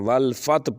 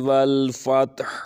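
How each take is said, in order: First: The final throaty h sound is not heard. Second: The final h is clearly breathed from the throat. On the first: The speaker calls it wrong. "हा की सुनाई नहीं देती" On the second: The speaker calls it right. "इसकी आवाज़ गले से अदा होती है"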